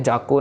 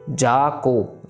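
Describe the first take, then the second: First: The two syllables are joined together. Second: The two syllables are said separately. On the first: The speaker calls it wrong. "जाको नहीं करना" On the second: The speaker calls it right. "ये भी फिर जोड़ने नहीं हमने"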